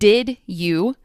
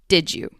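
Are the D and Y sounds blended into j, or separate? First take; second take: separate; blended. First: The D and Y sounds are kept separate. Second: The D and Y blend into a j sound.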